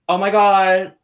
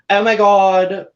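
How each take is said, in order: First: It is said in a plain voice. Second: It is said in Chloe's put-on accent.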